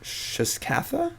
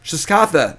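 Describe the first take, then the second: First: Slow, tentative sounding-out, rising at the end; said slowly. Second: Loud, higher, falling shout of Shiskatha; quick, sure, punchy greeting by name; confident exclamation. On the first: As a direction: sound out Shiskatha slowly, high and questioning. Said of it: "Say it slowly". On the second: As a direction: call the name out with gusto. Confident repeat after being corrected. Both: Real, not acted.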